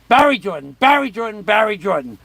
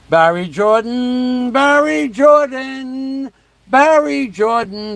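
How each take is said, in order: First: It is said fast. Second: It is said slowly.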